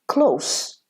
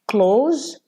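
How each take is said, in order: First: The final sound is an s. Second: The final sound is a z. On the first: It means near. "it's an adjective" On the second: It means to shut something. "please close the window"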